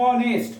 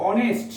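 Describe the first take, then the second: First: অনেস্ট with a long opening "o" and no h; drawn-out pronunciation. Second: Said in the usual way. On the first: Shown as a demonstration. Teacher showing students the silent h, drawn-out অনেস্ট. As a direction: hold the first vowel of অনেস্ট. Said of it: "এইচ এর উচ্চারণ কি হচ্ছে". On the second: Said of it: "এইচ এর উচ্চারণ অ হচ্ছে".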